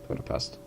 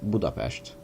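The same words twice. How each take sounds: First: The city name has an English pronunciation. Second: The city name has a Hungarian pronunciation. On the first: "I'm pronouncing it the English way" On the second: "the local way of saying it is Budapest"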